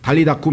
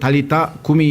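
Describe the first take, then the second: First: It is said run together as one word. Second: It is said as two separate words. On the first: The speaker calls it wrong. "아예 붙여가지고 달리다쿰" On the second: The speaker calls it right. "달리타 쿰이 해야 되는데"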